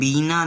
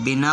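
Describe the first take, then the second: First: The first vowel is long. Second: The first vowel is short. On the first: It becomes a personal name. The speaker calls it wrong. "बीना नहीं होता, बीना नाम हो जाएगा" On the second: It means without. The speaker calls it right. "लेकिन यहाँ छोटी का उच्चारण किया है"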